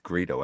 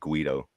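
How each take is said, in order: First: The name is said with a clear R sound. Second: The R is replaced by a W-like sound. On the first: The speaker calls it right. "It's Greedo" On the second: The speaker calls it wrong. "I can't get the W. I get the the W and the R. I'm always like Guido"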